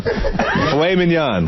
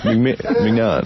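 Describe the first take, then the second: First: Drawn-out "mignon" as min-YON, pitched up; correct pronunciation. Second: Stuttering attempts at "mignon" as MIG-non; mispronounced mignon. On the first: Showing how you say that, slow min-YON for "mignon". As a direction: slowly sound out "mignon" with silent G. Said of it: "That's it". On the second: Mocking how he says that, stumbling MIG-non for "mignon". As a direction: trip over a hard G in "mignon". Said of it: "how do you say that?". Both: Shown as a demonstration.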